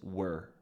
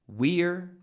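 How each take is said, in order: First: The word is said with a reduced vowel. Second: The word is said with a full vowel.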